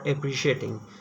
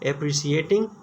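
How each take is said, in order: First: The consonant after 'pre' is an sh sound. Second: The consonant after 'pre' is an s sound. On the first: "Bangladesh और पाकिस्तान के जो रीजन है ये एप्रिशिएटिंग भी बोलते हैं" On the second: "एप्रिसिएटिंग भी इसको प्रोनाउंस किया जाता है"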